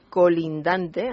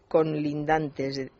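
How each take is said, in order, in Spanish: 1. La primera sílaba se dice sin n. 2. La primera sílaba se dice con una n añadida. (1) "En vez de colindante" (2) "añadir una N a la primera sílaba y decir colindantes"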